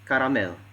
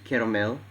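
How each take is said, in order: First: It is said with an Indonesian accent. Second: It is said with a standard English accent. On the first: "it sounds as caramel" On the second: "instead of saying caramel"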